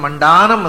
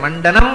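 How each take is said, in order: First: The middle vowel is drawn out long. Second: The middle vowel is short. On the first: It means the greatest adornment. "ಮಂಡಾನಂ ಅಂದರೆ ಅಧಿಕ ಮಂಡನ ಅಂತಾಯ್ತು" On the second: It simply means adornment. "ಮಂಡನಂ ಅಂತ ಹೇಳುವುದನ್ನು"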